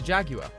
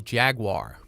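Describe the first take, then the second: First: The word is said with a British pronunciation. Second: The word is said with an American pronunciation. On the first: "It's called being British" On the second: "I think a lot of Americans would say Jaguar"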